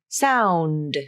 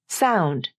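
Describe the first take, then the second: First: The final D is fully voiced. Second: The final D is devoiced, almost like T. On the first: The speaker calls it wrong. "It's not ... sound" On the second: The speaker calls it right. "The final D consonant lost some or all of its voicing"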